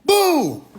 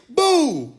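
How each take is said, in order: First: Desperate boo call. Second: High call of boo. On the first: Calling out after the crowd ignored him, near crying. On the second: Calling out to a crowd that won't answer, high call. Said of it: "I'm over here, I say". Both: Pretend.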